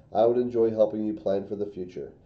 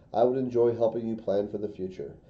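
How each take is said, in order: Both takes have the same delivery.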